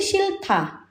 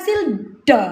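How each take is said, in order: First: The second syllable begins with a t. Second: The second syllable begins with a soft d. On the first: The speaker calls it right. "H ketemu D dibaca ta" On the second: The speaker calls it wrong. "bukan silda"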